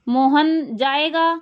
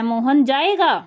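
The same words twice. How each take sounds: First: It is said as a plain flat statement. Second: It is said with exclamatory surprise. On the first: It simply states that Mohan will go. "तो सरल साधारण हो गया" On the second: The speaker is surprised that Mohan will go. "तो विस्मयादि बोधक"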